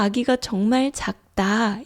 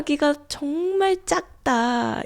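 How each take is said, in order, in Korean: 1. 마지막 단어는 부드러운 평음으로 시작해요. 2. 마지막 단어는 힘이 들어간 경음으로 시작해요.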